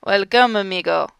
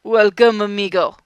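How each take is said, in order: First: Lightly put-on Spanish accent, louder; bad Spanish accent. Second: Louder, lightly put-on Spanish accent; bad Spanish accent. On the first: Bane welcoming the visitor in a bad Spanish accent. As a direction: greet him with a rough Spanish accent. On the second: Bane greeting Lex again in a bad Spanish accent. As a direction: call out the welcome in a rough Spanish accent. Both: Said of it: "the fucking bad accent".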